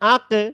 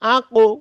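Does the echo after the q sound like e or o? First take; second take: e; o. First: The final echo is spread, like an e. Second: The final echo is rounded, like an o. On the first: The speaker calls it wrong. "হচ্ছে না" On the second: The speaker calls it right. "ঠোঁট দুইটাকে গোল করে দিতে হবে, তাহলে এটা সঠিক উচ্চারণ হবে"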